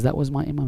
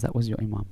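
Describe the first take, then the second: First: Slightly raised, questioning retold reply; questioning echo. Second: Softer, settled retold answer; grave confirmation. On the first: Man questioning the scholar about his Imam, questioning echo. Echoes it back in disbelief. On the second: Scholar confirming it to the embarrassed man, grave and quiet.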